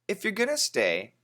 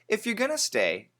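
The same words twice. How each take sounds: First: Going to is said fast, reduced to gonna. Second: The same.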